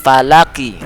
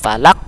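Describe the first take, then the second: First: The word ends with a short final vowel. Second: The word ends on a bounced final consonant. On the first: The reciter continues without stopping. "Kan ki aslinya itu" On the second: The reciter stops at this point. "Karena dia kita sukun situ waqaf dibaca"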